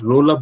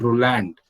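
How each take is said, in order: First: The name is said with a French pronunciation. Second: The name is said with an English pronunciation. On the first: The speaker calls it right. "I said Roland Barthes" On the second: The speaker calls it wrong. "not Roland"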